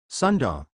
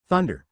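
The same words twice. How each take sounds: First: "Sunda", an S in place of the TH; accented word "Sunda", opening with S; accented "thunder". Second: Said in the usual way. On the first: A narrator's reading. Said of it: "It sounded more like". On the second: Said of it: "when he said".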